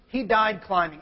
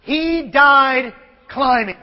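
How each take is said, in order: First: Said in the usual way. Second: Slow, weighty reading; solemn epitaph. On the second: Shown as a demonstration. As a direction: read the grave words slowly. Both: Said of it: "it says simply this".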